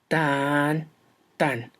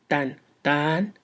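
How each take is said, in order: First: The first beat is long and stressed. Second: The second beat is long and stressed. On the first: "el otro parece arrastrarse. Y esto es el troqueo" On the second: "Uno va veloz, el jambo"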